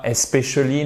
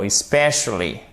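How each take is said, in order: First: "especially" said wrongly, stress off the "spe"; botched French-style "especially" without its English stress; mispronounced especially. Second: "especially" firmly stressed on "spe"; teacher's corrected "especially", second syllable prominent; correct tonic stress. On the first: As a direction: say "especially" as a learner's mistake, syllables evenly weighted. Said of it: "et pas". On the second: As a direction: correct it to es-PE-cially. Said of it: "on regarde notre accent tonique pour bien prononcer". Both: Shown as a demonstration.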